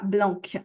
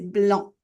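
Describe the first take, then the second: First: The final C is pronounced as a K sound. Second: The final C is silent. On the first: The speaker calls it wrong. "on ne prononce pas blanc" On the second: The speaker calls it right. "le C ne se prononce pas"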